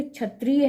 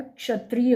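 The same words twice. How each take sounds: First: क्षत्रिय as chhatriya, starting with छ; wrong consonant. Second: क्षत्रिय as kshatriya, clear क्ष; correct consonant. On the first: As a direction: swap क्ष for छ in क्षत्रिय. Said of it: "तो छ नहीं". (क्षत्रिय को 'छ' से बोलें) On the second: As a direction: start क्षत्रिय with a k-sh cluster. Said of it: "क्ष होता है". (क्षत्रिय को 'क्ष' से बोलें) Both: Shown as a demonstration.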